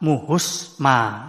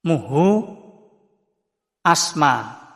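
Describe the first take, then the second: First: The words run together and the 'a' drops. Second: The two words are said separately with 'a'.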